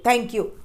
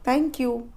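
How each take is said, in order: First: It is said abruptly, tossed out rudely. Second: It is said gently and politely. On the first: The speaker calls it wrong. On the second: The speaker calls it right.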